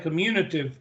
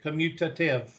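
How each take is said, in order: First: The middle T sound is left out. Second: The middle T sound is clearly pronounced. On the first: The speaker calls it wrong. "Make sure you put the T in there, because if you say commutative" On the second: The speaker calls it right. "I have always pronounced it commutative"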